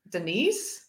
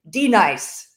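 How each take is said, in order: First: The name begins with an ordinary short syllable. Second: The name begins like the spoken letter D. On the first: The name is said as its owner says it. The speaker calls it right. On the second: The name is being mispronounced. The speaker calls it wrong.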